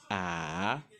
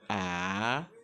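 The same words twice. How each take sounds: The two takes are said the same way.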